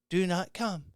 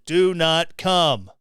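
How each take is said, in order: First: It is said weakly, without force. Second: It is said forcefully and firmly.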